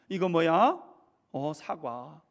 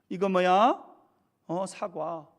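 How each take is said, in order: No difference in how they are said.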